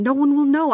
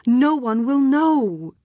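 First: High, loud desperate insistence; urgent desperate plea. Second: Slow, drawn-out desperate plea; slow it right down, pleading; slow pitiful plea. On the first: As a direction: push it out urgently. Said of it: "almost threatening in his passion". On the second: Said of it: "pitiful also". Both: A narrator's reading.

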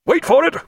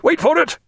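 First: High tense hold-fire call; commanding shout. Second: Repeated high call, stress on it; commanding shout. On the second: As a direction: press the word it hard. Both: A narrator's reading. Captain holding fire.

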